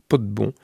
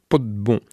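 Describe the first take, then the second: No difference in how they are said.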